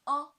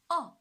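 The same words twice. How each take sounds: First: The pitch stays high and level. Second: The pitch falls sharply from high to low. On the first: "The first tone" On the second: "the fourth tone. From five to one"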